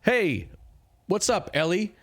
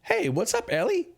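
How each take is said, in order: First: High, louder friendly hail; second try at the Goliath's voice, louder and more hearty; giant's greeting retake. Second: Squeaky voice pitched far too high; a failed try at the giant's voice; squeaky high greeting that misses the giant completely; wrong voice attempt. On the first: Acted. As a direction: call out cheerfully to an old friend. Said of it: "I need an actual voice here". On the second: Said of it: "Wait, wait, no, that's not right".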